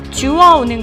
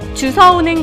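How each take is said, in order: First: The second syllable starts with a w sound. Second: The second syllable starts with an s sound. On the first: The speaker calls it right. "주워오는 것이 올바른 표현입니다" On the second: The speaker calls it wrong. "주워와라고 잘못 얘기하고"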